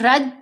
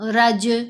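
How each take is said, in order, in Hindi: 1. अंतिम व्यंजन बिना गूंज के सपाट खत्म होता है। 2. अंतिम व्यंजन उछलती गूंज के साथ खत्म होता है। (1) "तो फिर नहीं कलकला हुआ" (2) "ये कलकला है"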